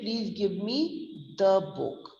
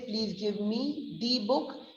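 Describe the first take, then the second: First: The word 'the' has a short uh vowel. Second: The word 'the' has a long ee vowel. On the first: The speaker calls it right. "We'll say" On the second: The speaker calls it wrong. "Then we will not say"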